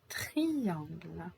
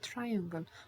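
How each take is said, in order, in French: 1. Ce mot a une prononciation française. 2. Ce mot a une prononciation anglaise. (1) "En français, un triangle" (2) "In English, I say triangle"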